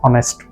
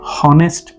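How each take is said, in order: First: The word begins with a vowel sound. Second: The word begins with an h sound. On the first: The speaker calls it right. "An ऑनेस्ट man" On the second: The speaker calls it wrong. "ये हॉनेस्ट नहीं है, एच तो इसमें पढ़ा ही नहीं जाता है"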